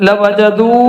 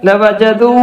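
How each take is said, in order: No difference in how they are said.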